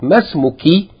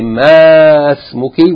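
First: The vowel in ma is cut short. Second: The vowel in ma is held long. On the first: The speaker calls it right. "we say as though it's short" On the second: The speaker calls it wrong. "we don't say ma smuki"

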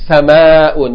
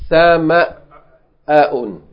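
First: The word flows without a glottal stop break. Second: The word has a short glottal stop break. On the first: The speaker calls it wrong. "you can't say" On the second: The speaker calls it right. "You have to say, ... You have to break, a short break in order to pronounce the Hamza"

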